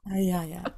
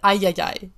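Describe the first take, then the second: First: The word ends with an 'ah' sound. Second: The word ends with an 'eye' sound. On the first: The speaker calls it right. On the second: The speaker calls it wrong. "You said ayayay"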